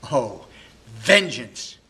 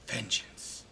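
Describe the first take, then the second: First: Posthumus crying vengeance. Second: Vengeance breathed in a soft whisper; Posthumus whispering vengeance. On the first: Betrayed husband alone, calling for revenge in an angry cry. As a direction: hurl vengeance out in fury. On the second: Betrayed husband alone, muttering revenge in a whisper. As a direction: let the word die to a whisper. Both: Acted. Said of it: "heartbroken and very angry".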